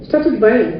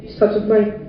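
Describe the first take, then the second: First: TUDO BEM asked as a question; question intonation. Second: TUDO BEM stated as an answer; answer intonation. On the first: Interviewer demonstrating asking if all is well, questioning tune. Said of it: "de perguntar". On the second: Interviewer demonstrating the reply to the question, declarative tune. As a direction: say "Está tudo bem" as a reply, evenly, settling on BEM. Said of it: "com responder". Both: Shown as a demonstration.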